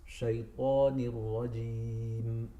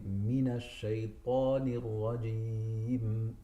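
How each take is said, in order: First: "shaitanir rajim" slow, light sheen; correct slow recitation. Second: "mina shaitanir rajim" slow, a short clear na; correct slow recitation. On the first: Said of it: "It's shaitanir rajim". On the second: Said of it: "There is mina". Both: Shown as a demonstration.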